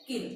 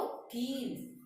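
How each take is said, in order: First: किल said with a quick, short i. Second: कील with the ee drawn out; long i. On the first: Teacher comparing pronunciations, किल with short i. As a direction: clip the vowel of किल to a short i. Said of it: "छोटी ई है तो उसके उच्चारण में कम समय". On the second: Teacher comparing pronunciations, कील with long ee. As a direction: stretch the ee of कील. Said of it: "बड़ी ई है तो उसके उच्चारण में अधिक समय". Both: Shown as a demonstration.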